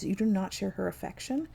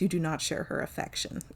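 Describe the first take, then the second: First: It rises at the end, like a question. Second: It falls at the end, like a statement.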